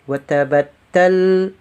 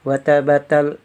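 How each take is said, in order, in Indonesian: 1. Bunyi t terakhir ditekan dan ditahan ganda. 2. Bunyi t terakhir pendek dan tunggal. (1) "kalau ada tasdid tekan di huruf yang bertasdid tadi" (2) "Kalau tanpa tasdid ya kita membacanya watabatal"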